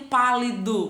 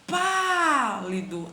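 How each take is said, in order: First: Said in the usual way. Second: PÁLIDO very slow, with a long-held PÁ; stretched stressed syllable. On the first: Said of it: "Abaixo eu tenho". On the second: Shown as a demonstration. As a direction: draw out the pá in pálido. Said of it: "Vamos com essa sílaba tônica". (pálido com o "pá" bem alongado)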